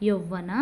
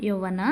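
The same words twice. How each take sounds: Both takes have the same delivery.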